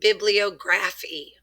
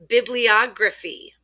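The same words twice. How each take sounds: First: A full 'graph' sound is said in the middle. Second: The middle is reduced, with no clear 'graph'. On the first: The speaker calls it wrong. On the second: The speaker calls it right.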